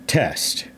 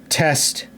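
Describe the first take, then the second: No difference in how they are said.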